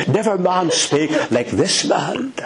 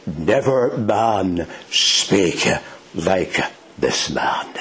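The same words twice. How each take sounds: First: Higher-pitched astonishment, rising at the end; amazed, pitch climbing in disbelief. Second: Very slow, measured, falling to a hush; slow, weighty, spaced-out words; solemn quotation. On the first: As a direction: say it as if flabbergasted. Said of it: "They were flabbergasted. They were amazed". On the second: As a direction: let each word land, sinking low at the end. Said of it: "here's what they said". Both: Acted.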